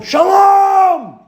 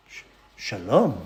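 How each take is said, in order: First: High shout across the room; big loud hello; shouted greeting. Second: Much softer, lower, stammering back; startled, hushed return greeting; hesitant quiet reply. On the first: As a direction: bellow it from the back of the room. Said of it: "screaming his head off". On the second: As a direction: answer shyly, unsure. Timid reply to shouted greeting. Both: Retold or imitated.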